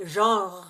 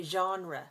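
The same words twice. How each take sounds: First: One-syllable French genre, zh start, nasal vowel; French pronunciation. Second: Genre in two syllables, ZHON-ruh; English pronunciation. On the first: Teacher showing the French original of genre, one-syllable French pronunciation. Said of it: "in French, we say". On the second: Teacher showing English genre, two-syllable pronunciation. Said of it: "pronounce it with two syllables". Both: Shown as a demonstration.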